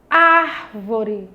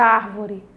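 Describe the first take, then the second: First: "árvore" with ár held long and firm; slow classroom ÁR-vore; stress on ÁR. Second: Said in the usual way. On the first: Shown as a demonstration. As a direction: punch the opening ár of "árvore", then fall. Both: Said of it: "eu pronunciei com mais intensidade".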